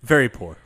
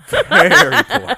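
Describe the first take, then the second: First: Said in the usual way. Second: High, loud, slow laughing repeat. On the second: Shown as a demonstration. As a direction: stretch it out through a laugh.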